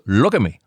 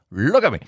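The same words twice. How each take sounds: First: Said in the usual way. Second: Pitched up, pleading for attention; playful insistent call; higher insistent repeat. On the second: Shown as a demonstration. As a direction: say it again higher, demanding to be looked at.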